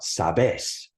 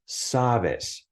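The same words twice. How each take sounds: First: The stress is on the last syllable. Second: The stress is on the first syllable. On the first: The speaker calls it wrong. "It's not sabes" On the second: The speaker calls it right. "it's on the second to last syllable"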